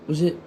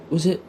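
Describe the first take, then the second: No difference in how they are said.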